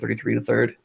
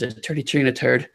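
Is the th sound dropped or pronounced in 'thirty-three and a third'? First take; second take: pronounced; dropped. First: The th sounds are fully pronounced. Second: The th sounds are dropped, like t. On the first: "as opposed to" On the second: "you drop the th, so it's"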